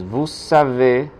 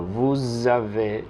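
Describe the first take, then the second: First: "vous savez" with a clear voiceless S; S sound. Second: "vous avez" linked as vou-zavez, voiced Z; Z liaison. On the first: Teacher contrasting usted sabe with usted tiene, voiceless S. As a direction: hold a hissing S at the start of savez. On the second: Teacher contrasting usted tiene with usted sabe, voiced Z. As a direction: buzz the Z between vous and avez. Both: Shown as a demonstration. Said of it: "suena es como una Z".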